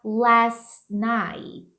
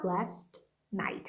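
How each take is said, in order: First: "last night" with the Ts held back, unreleased; held final T. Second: "last night" with both Ts fully released; exploded final T. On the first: Teacher offering an option, "last night" with T held. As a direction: stop short on the T in "last night". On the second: Teacher showing the other option, "last night" with exploded Ts. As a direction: pop each T in "last night", separating the words. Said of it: "quando você explode tudo". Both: Shown as a demonstration.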